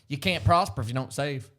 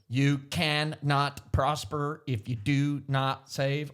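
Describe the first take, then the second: First: The words are run smoothly together. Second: The words are said detached, one by one.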